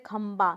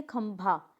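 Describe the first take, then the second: First: खंबा ending in plain baa; common mispronunciation. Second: खंभा ending in breathy bhaa; correct pronunciation. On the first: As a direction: demonstrate the mistake खंबा without breath on b. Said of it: "कुछ लोग बोलते हैं". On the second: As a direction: model खंभा with aspirated bh. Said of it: "नहीं, खंबा नहीं है". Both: Shown as a demonstration.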